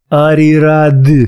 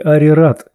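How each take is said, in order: First: The name ends with a voiced d sound. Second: The name ends with a voiceless t sound. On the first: The speaker calls it right. "Ды до конца" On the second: The speaker calls it wrong. "не Арират"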